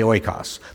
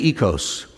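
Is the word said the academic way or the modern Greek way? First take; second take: academic; modern Greek. First: It is said the academic way. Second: It is said the modern Greek way. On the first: "If you're an academic, you say oikos" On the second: "In modern Greek, you would say ekos"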